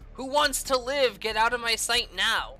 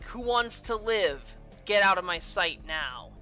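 First: It runs on with no pause after 'live'. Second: There is a clear pause after 'live'. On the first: The speaker calls it wrong. "It doesn't sound right" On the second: The speaker calls it right. "Maybe if they added a comma"

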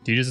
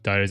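First: The first syllable sounds like teeth. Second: The first syllable does not sound like teeth. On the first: The speaker calls it wrong. "Titus is too close to teeth" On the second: The speaker calls it right. "Titus ain't too bad"

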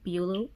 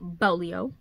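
First: The surname sounds like Beulah. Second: The surname sounds like Bolio. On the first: The speaker calls it wrong. "I have been saying this author's name so wrong" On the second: The speaker calls it right. "I believe it's Bolio is how you pronounce it"

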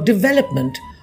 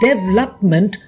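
First: The stress is on the second syllable. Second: The stress is not on the second syllable. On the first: The speaker calls it right. "Stress on the velop in development" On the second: The speaker calls it wrong. "and development for development"

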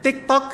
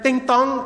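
First: The name is said as 'tik-tok', with k endings. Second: The name is said as 'ting-tong', with nasal endings. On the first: The speaker calls it right. "ไอ้ไม่ใช่" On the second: The speaker calls it wrong. "ไอ้ไม่ใช่"

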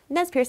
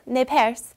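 First: The name is pronounced in an English way. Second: The name is pronounced in a French way.

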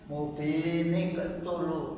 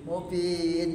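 First: The words run together with an extra n sound. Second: The reading stops after the first word. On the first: The reader continues without stopping. "kalau dibaca terus, nonya terbaca" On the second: The reader stops before the next word. "ya berhenti"

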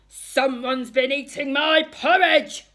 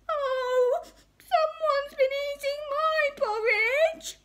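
First: It is growled in Daddy Bear's voice. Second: It is cried in Baby Bear's voice.

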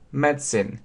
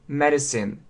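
First: It is said with a British pronunciation. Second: It is said with an American pronunciation. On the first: "если мы посмотрим британский вариант, то очень часто произносится medicine" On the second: "часто в американском английском произносится medicine"

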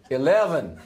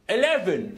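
First: An attempted American accent that sounds Irish. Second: An attempted English accent. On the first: "You need to try an American accent. / That sounds Irish, not American" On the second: "Try an English accent"

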